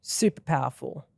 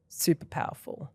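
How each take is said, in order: First: Said in the usual way. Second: Soft breathy whisper of the same words; whispered echo. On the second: Shown as a demonstration. Host repeating praise for the interview, whispered. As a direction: let it fall to a whisper, to yourself.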